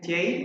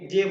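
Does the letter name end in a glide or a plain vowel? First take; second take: glide; plain vowel. First: It ends with an 'ay' glide. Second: It ends in a short plain vowel. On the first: The speaker calls it right. "এর মূল উচ্চারণ হবে জেই" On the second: The speaker calls it wrong. "আমরা যে যে বলি"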